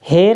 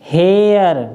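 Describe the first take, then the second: First: The vowel is a plain short e. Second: The vowel glides like the air sound. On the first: The speaker calls it wrong. "हेर नहीं पढ़ेंगे" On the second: The speaker calls it right. "क्योंकि आर ने इसका उच्चारण बदल दिया, तो हम इसको पढ़ेंगे हेयर"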